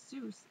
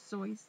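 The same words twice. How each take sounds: First: The name rhymes with the word Zeus. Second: The name rhymes with the word voice. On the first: This is how nearly everyone says it. The speaker calls it wrong. "like Zeus" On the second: This is how the author himself said it. The speaker calls it right. "like voice"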